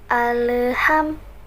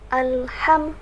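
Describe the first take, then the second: First: An extra vowel is dragged in between l and h. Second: The l and h are said clearly, no extra vowel. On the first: The speaker calls it wrong. "seolah-olah ada penambahan e di tengah-tengah huruf lam dan ha" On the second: The speaker calls it right. "setiap hurufnya itu dibaca dengan jelas"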